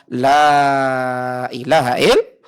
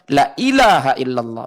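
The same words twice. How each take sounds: First: The vowel of the first word is lengthened. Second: The vowel of the first word is short. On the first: There is no god worthy of worship except Allah. The speaker calls it right. "Harusnya dipanjangkan la-nya" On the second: There truly is a god worthy of worship besides Allah. The speaker calls it wrong. "Bahaya ibu"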